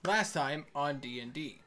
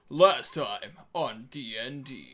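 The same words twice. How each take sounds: First: It is said in the speaker's normal voice. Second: It is said in a put-on narrator voice. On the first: The speaker calls it wrong. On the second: The speaker calls it right.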